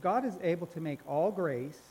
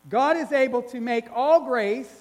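First: It is read at normal, softer volume. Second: It is read louder.

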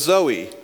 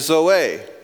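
First: It is pronounced the usual English way. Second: It is pronounced the original Greek way. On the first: It is the English personal name. The speaker calls it wrong. "you may have met someone that their name is Zoe" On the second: It is the original Greek word for life. The speaker calls it right. "In the original Greek, the pronunciation is actually zoe"

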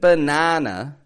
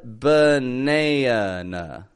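First: The A vowel is an open, unmodified ah. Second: The A vowel is tense and twangy before n. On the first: The speaker calls it wrong. "It wasn't banana" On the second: The speaker calls it right. "but banana"

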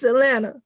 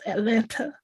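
First: The second t is dropped, like Atlanna. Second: Every syllable is said, with the second t. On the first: The speaker calls it right. "if you know, it's Atlanta" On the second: The speaker calls it wrong. "I say all of the syllables Atlanta"

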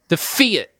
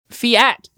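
First: The F sound is hit hard. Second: The A sound is stressed. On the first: "you're really punching that F" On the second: "where you put the emphasis on the A. Because you're not going"

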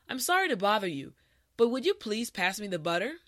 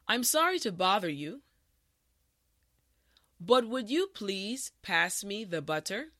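First: The sentence is spoken at a natural speed. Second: The sentence is spoken slowly and carefully. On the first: "the last time at a regular pace" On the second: "this time repeat after me"

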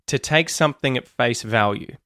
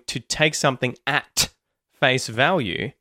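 First: 'At' has a schwa vowel and a muted T. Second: 'At' has a full vowel and a clear T. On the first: "you're going to hear something more like" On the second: "instead of hearing"

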